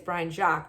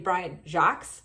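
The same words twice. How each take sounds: First: The name is said with a less American pronunciation. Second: The name is said with a more American pronunciation. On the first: "I would say it's Brian Jacques" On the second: "if you want to make it a little bit more American"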